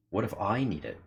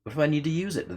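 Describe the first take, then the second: First: Said in the usual way. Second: Much higher, acted heroine voice; high character voice. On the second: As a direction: pitch the question up high in character. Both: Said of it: "rereads the line in character".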